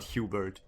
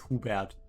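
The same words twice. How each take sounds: First: The name is said with English pronunciation. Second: The name is said with German pronunciation. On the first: The speaker calls it wrong. "It's not Hubert" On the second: The speaker calls it right. "pronounced the German way"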